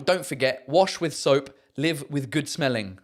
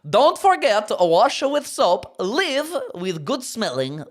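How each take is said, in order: First: It is said in his normal voice. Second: It is said in a Borat voice.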